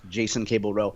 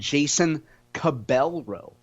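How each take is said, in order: First: The middle name is not said like 'Cabell'. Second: The middle name is said like 'Cabell'. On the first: The speaker calls it right. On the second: The speaker calls it wrong.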